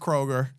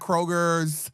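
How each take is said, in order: First: The name ends without any s sound. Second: The name ends with an added s sound. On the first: The speaker calls it right. "It's just Kroger" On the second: The speaker calls it wrong. "it is not Kroger's"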